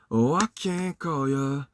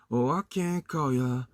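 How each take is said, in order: Both takes have the same delivery.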